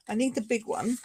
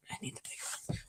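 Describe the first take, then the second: First: Said in the usual way. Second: Very soft whispered echo; whispered aside. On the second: Real, not acted. Crafter echoing herself about the machine, whispered. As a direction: repeat it under your breath, whispering.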